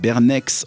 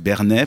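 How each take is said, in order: First: The name ends with a final ks sound. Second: The name ends without a final ks sound. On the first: This is the way the French say the name. "Il y a le X, ça s'écrit pareil, mais c'est en France" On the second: This is the local Geneva way of saying the name. "Les Genevois, ils disent pas c'est Bernet"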